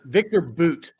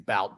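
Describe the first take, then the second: First: The vowel differs from the spelled reading. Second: The vowel follows the spelled reading. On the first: The speaker calls it right. "that's not how it's pronounced" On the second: The speaker calls it wrong. "You would think it's Bout"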